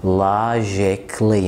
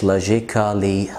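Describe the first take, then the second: First: Logically said slowly as "lojik-lee", the a silent; logically drawn out, no a; slow correct pronunciation. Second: Logically said slowly with the a sounded, "lojik-ally"; logically with every letter sounded, slow; wrong pronunciation. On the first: (logically ببطء من غير الـ a) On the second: (logically غلط بنطق الـ a) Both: Shown as a demonstration. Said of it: "مش logically".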